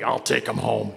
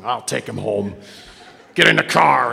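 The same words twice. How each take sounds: First: Said in the usual way. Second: Put-on lower, gruff old-timer talking round a toothpick; old man with a toothpick. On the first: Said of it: "all the old men talk like that". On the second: Old sponsor ordering the kid into his car, low and gruff. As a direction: growl it like a crusty old sponsor. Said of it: "he had this toothpick all the time".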